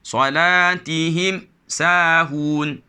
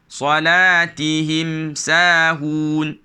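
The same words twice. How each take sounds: First: The reading stops abruptly at the mim sound. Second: The reading flows smoothly through the mim sound. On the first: The speaker calls it wrong. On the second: The speaker calls it right.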